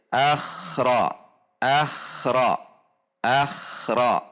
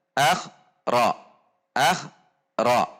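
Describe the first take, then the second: First: "akhra" with kh gliding into ra unbroken; flowing correct version. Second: "akhra" with a small stop between akh and ra; broken-up wrong version. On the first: Teacher showing the right, flowing "akhra". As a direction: run "akhra" smoothly, no pause. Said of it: "Seharusnya dibaca mengalir". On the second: Teacher showing the wrong, choppy "akhra". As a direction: break "akhra" after akh. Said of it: "Contoh yang terjeda". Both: Shown as a demonstration.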